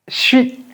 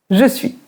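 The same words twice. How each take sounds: First: The j and s merge into a 'ch' sound. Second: Both words are said fully and separately. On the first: "Le J et le S, ça fait le son ch quand on parle vite" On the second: "comment les Français disent je suis?"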